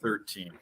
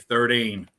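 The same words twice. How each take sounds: First: The middle consonant sounds like a t. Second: The middle consonant sounds like a d.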